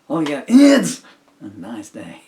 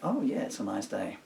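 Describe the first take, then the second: First: The emphasis falls on unexpected words. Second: The emphasis falls on the expected words.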